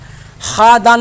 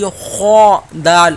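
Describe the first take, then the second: First: The first letter is pronounced thin and light. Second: The first letter is pronounced heavy and full. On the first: The speaker calls it wrong. "नहीं पढ़ेंगे" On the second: The speaker calls it right. "जिनको मोटा करके पढ़ा जाता है"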